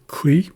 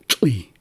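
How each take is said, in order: First: "kli" with a hard k before the l, rising; k sound in kli. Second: "tli" with a tl onset, falling; tl sound in tli. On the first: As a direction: show "kli" beginning on k. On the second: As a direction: show "tli" beginning on tl, not k. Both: Shown as a demonstration. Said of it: "differences in the sounds".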